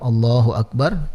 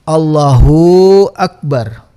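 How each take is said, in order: First: The 'hu' is short with no added stop. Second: The 'hu' is stretched into a long vowel. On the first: The speaker calls it right. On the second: The speaker calls it wrong.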